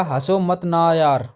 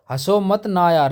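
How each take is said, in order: First: Slow drawn-out plea, please don't laugh; begging not to laugh. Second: Insisting. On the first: Friend pleading slowly with someone to stop laughing. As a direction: stretch each word out. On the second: Friend repeating the plea more insistently. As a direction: push the plea more urgently. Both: Retold or imitated. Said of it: "उसने कहा".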